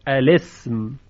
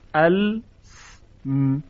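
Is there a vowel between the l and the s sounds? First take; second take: Yes; No. First: A short i vowel follows the l before s. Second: The l runs straight into s with no vowel. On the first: The speaker calls it right. "ساکن اولی که لام ساکن باشه این رو کسره میدن" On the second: The speaker calls it wrong. "چنین تلفظی برای عرب غیر ممکنه"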